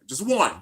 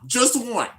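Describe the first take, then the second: First: Said in the usual way. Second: "Just one." again, pitched higher; pleading repeat. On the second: Real, not acted. Fan begging the studio for a female character, higher plea. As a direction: beg it the second time. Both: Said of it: "only one thing I wanted".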